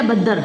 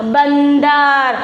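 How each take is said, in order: First: "बद्दर" with a doubled द and no n; missing anusvara. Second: "बंदर" stretched very slowly, the n held before द; anusvara sounded. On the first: Teacher showing the word written without anusvara, "बद्दर" with no n sound. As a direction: say "बद्दर", leaving out the nasal. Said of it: "बद्दर शब्द हो रहा है क्या". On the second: Teacher showing the word with anusvara added, "बंदर" slow with a long n. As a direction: draw out "बंदर" so the n is heard. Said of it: "शब्द क्या बन गया बेटा". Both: Shown as a demonstration.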